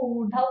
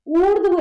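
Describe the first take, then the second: First: ऊर्धव with an added a between dh and v; common mispronunciation. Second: ऊर्ध्व punched louder, dh joined straight to v; correct pronunciation. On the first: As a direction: say ऊर्धव as oor-dhav, splitting the final cluster. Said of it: "कई बच्चे इसको ऊर्धव बोल देते हैं". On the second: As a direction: correct them firmly with oordhva, no vowel between dh and v in ऊर्ध्व. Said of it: "गलत है". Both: Shown as a demonstration.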